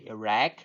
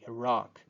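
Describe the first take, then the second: First: The second vowel sounds like eh. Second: The second vowel sounds like ah. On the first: Republican politicians are more likely to say it this way. "use the eh realization, so say Iraq" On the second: Democratic politicians are more likely to say it this way. "use the ah pronunciation, saying Iraq"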